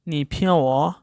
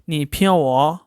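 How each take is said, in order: First: The n in pian is nearly silent. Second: The same.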